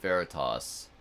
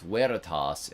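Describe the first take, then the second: First: The word begins with a V sound. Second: The word begins with a W sound. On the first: This is the ecclesiastical pronunciation. "they do use the V instead of the W sound" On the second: This is the classical pronunciation. "when I learned classical Latin in high school, it was ... veritas"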